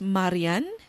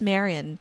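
First: The name is pronounced the Filipino way. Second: The name is pronounced the English way. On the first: This is how the name is said in the Philippines. "kung nasa Pinas ka, my name is Marian" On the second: This is how the name is said among English speakers. "kung nandito ka sa Canada or anywhere else around the world na ang mga tao ay English speaking"

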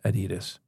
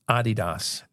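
First: The name is said the usual English way. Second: The name is said the original German way. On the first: The speaker calls it wrong. "it is not pronounced Adidas" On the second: The speaker calls it right. "It's Adidas. It's a German company"

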